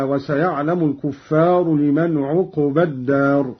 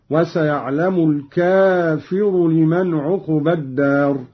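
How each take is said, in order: First: الكفار as kuffar, doubled f and long a after it; plural reading. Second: الكافر as kafir, long a and single f; singular reading. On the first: Reciter giving the verse before the variant, plural الكفار. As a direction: recite الكفار with u after kaf, kuf-far. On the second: Reciter showing Qalun's singular, long a in الكافر. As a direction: lengthen the first a of الكافر, light f with i. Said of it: "بفتح الكاف وألف بعدها". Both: Shown as a demonstration.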